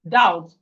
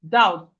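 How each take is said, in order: First: The B sound is silent. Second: The B sound is silent.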